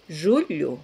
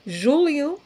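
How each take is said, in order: First: "Julio" as Portuguese "julho", palatal lh, falling. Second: "Julio" as Portuguese "júlio", clear l plus i glide, rising. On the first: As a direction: say "Julio" as ZHOO-lhoo, tongue body on palate. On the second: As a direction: say "Julio" as ZHOO-lyoo with separate l and i. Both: Shown as a demonstration. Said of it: "no suena igual que Julio".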